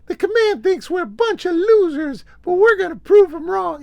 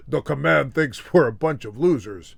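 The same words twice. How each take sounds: First: Very high, loud, urgent falsetto; rally the troops in a piercing high put-on voice; high-pitched pop star impression at full volume. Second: Mismatched dub actor's voice, not falsetto; mock overdub of a star's line; dubbed voice. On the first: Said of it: "[name] comes out and he's like". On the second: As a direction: put on an ordinary-pitched stand-in voice. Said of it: "get somebody to dub his voice".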